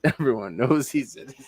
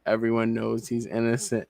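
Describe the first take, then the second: First: Sarcastic line broken by a laugh; laughing sarcastically. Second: Sarcastic. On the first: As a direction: laugh through the mock praise. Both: Retold or imitated. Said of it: "I'm reading a little bit of sarcasm".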